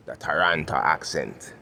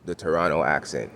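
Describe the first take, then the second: First: Slowly, "Toronto" with the second T sounded; careful Toronto pronunciation. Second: Said in the usual way. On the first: Shown as a demonstration. Man closing his point on accents, "Toronto" said slowly with both Ts. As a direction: say "Toronto" slowly as "ta-ran-ta", every syllable out. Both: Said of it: "let me just revert once again to".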